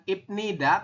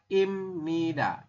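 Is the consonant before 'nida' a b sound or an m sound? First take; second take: b sound; m sound. First: A b sound comes before nida. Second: An m sound comes before nida. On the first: The speaker calls it wrong. "Bukan Ibnida" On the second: The speaker calls it right. "tapi dibacanya adalah Imnida"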